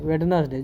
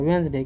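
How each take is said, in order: First: The d sound in the middle is pronounced. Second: The d sound in the middle is silent. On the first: The speaker calls it wrong. "जो कि सरासर गलत है" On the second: The speaker calls it right. "क्योंकि डी silent हो जाता है"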